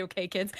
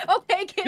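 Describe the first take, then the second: First: Said in the usual way. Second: High, loud mock address to kids; mock teacher. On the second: Host jokingly addressing kids about stabbing advice, mock teacher call. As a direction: call the kids to order, hammed-up. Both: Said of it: "I'll just say".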